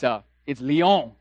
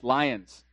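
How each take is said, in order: First: The name is said like lee-on, without the s. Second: The name sounds like the English word lions. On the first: The speaker calls it right. "It's Lyon" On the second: The speaker calls it wrong. "It's not pronounced lions"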